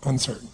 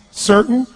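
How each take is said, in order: First: Low, very soft, falling; uncertain. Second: Higher, firm and sure; certain. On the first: Coach contrasting the two states for the crowd, uncertain. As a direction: deflate as if doubt took over. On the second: Coach contrasting the two states for the crowd, certain. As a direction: lift it with conviction. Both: Shown as a demonstration. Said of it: "the difference between being certain".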